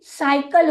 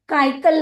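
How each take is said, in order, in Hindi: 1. यह शब्द S ध्वनि से शुरू होता है। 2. यह शब्द K ध्वनि से शुरू होता है। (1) "क के रूप में ना करके स के रूप में" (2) "काइकल नहीं होता है"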